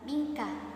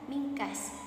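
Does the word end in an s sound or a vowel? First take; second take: vowel; s sound. First: The word ends in a vowel after k. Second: The word ends with an added s sound. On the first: This is the standard form. "Lafadz mingkah" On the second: This is the form used in one regional dialect. "dibaca dengan mingkas"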